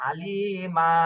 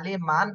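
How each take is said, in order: First: The word ends on a long drawn vowel. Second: The word ends with a final n sound. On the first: The speaker calls it right. "এক আলিফ টান দিয়ে থামতে হবে" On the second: The speaker calls it wrong. "Reading এর সময় আলি মান আর পড়া যাবে না"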